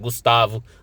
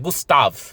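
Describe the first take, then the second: First: The name ends with an added o vowel. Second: The name ends on the v consonant. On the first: The speaker calls it wrong. "tem gente que pronuncia Gustavo" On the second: The speaker calls it right. "mas é Gustav"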